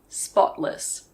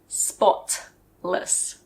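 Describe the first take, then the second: First: The middle T is very soft and light. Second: The middle T is hard and clearly released. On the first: The speaker calls it right. "It's a very soft T" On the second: The speaker calls it wrong. "We don't usually say spotless"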